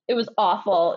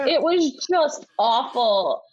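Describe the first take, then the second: First: Said in the usual way. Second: "just awful" stretched slow, weight on "just"; slow emphatic "It was just awful"; drawn-out emphasis. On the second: Shown as a demonstration. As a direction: lean hard and slow into "just".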